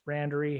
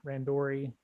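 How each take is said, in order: First: "Randori" as RAN-duh-ree; "Randori" stressed at the front, RAN-der-ee; reduced middle syllable. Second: "Randori" as ran-DOR-ee; "Randori" with a clear, open "dor"; middle syllable "DOR". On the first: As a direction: say "Randori" with a weak, swallowed middle vowel. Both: Shown as a demonstration. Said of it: "I'll just stick with one".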